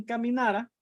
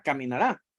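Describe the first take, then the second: First: "caminara" with the stress on the na, not the last syllable; penultimate stress. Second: "Caminará" with the stress on the last syllable, -rá; final-syllable stress. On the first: Teacher contrasting a past form for students, penultimate stress. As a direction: lean on NA in "caminara". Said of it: "caminara es como pasado". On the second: Teacher showing students the future tense, final-syllable stress. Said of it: "eso es futuro". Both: Shown as a demonstration.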